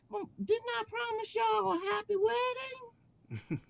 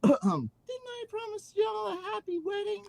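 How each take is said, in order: First: It is said in a twangy accent. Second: It is said without a twangy accent.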